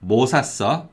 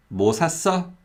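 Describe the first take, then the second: First: 뭐 stressed, 샀어 unstressed. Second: 샀어 lifted high and stressed; stress on the verb. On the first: Teacher recapping the "what" meaning, stress on 뭐. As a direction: hit 뭐 and ease off 샀어. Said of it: "if you put stress on 뭐". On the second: Teacher recapping the "something" meaning, stress on 샀어. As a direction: go lightly over 뭐, stress 샀어. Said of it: "if you put stress on the verb". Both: Shown as a demonstration.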